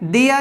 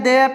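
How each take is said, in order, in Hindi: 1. स्वर 'ee' की तरह शुरू होता है, फिर आगे सरकता है। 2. स्वर 'ay' की तरह शुरू होता है, फिर आगे सरकता है। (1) "ई अ" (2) "ए अ"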